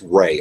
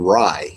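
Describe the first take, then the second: First: The name does not sound like samurai's ending. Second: The name sounds like the end of samurai. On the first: "people say it's Ray" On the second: "I was saying Rai because of Samurai"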